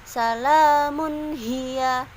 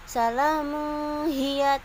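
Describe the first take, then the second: First: The n sound is pronounced clearly. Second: The n sound is blurred and nasal. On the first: The speaker calls it right. "Jelas bacaannya" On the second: The speaker calls it wrong.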